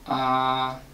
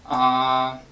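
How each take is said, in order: First: The pitch stays level and steady throughout. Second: The pitch stays level and steady throughout.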